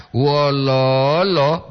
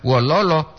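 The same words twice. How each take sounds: First: Wololo slow, middle lo stretched long; long vowel for "how". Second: Wololo with short, even syllables; short vowels for "sad". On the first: Teacher contrasting two meanings by intonation, Wololo drawn out. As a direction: hold the second syllable of Wololo, then drop. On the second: Teacher contrasting two meanings by intonation, Wololo kept short. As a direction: say Wololo without stretching the middle lo. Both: Shown as a demonstration. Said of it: "supaya jelas perbedaan".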